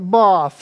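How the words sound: It is said in a posh accent. The speaker is upper class. "The posh talk as if they have a plum in their mouth"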